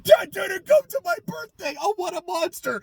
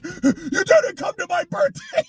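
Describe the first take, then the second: First: Mock whiny victim. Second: Higher, rising whiny parody; mock petulant line. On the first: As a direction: sneer the line like a spoiled kid. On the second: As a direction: sulk it like a child accusing dad. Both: Mocking the character.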